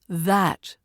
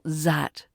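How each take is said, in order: First: It begins with a voiced th sound. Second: It begins with a z sound. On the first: The speaker calls it right. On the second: The speaker calls it wrong. "not zat"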